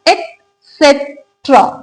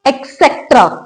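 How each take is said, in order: First: The word starts with an "et" sound. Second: The word starts with an "eks" sound. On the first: The speaker calls it right. "E T होता है इसको पढ़ते हैं एट" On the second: The speaker calls it wrong. "That's absolutely wrong. जब इसमें एक्स है ही नहीं"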